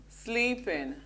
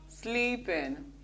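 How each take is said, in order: No difference in how they are said.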